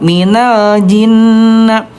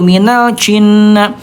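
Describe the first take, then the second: First: The j is voiced with no escaping air. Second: The j leaks air and sounds like ch. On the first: The speaker calls it right. "tidak ada udara" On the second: The speaker calls it wrong. "yang ke satu"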